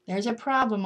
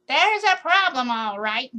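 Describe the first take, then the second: First: Said in the usual way. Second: Put-on high, loud scratchy old tree; a scratchy voice insisting. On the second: A narrator's reading. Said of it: "a scratchy kind of voice say".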